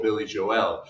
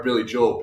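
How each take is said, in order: First: "Joel" split into "Jo-el"; "Joel" with a clear "ell" ending; two-syllable Joel. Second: "Joel" run together without a second vowel; one-syllable Joel. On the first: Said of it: "we've been pronouncing it wrong". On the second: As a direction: say "Joel" to rhyme with "bowl". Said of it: "the sound guy calls [name]". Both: Retold or imitated.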